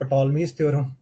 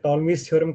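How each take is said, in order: First: The P sound is pronounced at the start. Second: The P sound is silent at the start. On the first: The speaker calls it wrong. "This is not टॉलमीज़ theorem" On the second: The speaker calls it right. "इसमें पी silent होता है"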